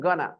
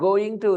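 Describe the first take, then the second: First: The words are reduced and blended into one. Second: Both words are said fully and separately. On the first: "They will say, I'm gonna" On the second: "Instead of going to"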